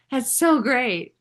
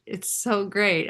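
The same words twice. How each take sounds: First: Laughing, higher and louder, drawn out; laughing delight. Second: Said in the usual way. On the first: Real, not acted.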